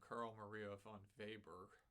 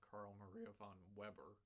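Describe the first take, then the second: First: The name is said with German pronunciation. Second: The name is said with English pronunciation. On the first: The speaker calls it right. "You pronounce this guy's name" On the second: The speaker calls it wrong. "not ... which is what I would have said the first time that I saw it"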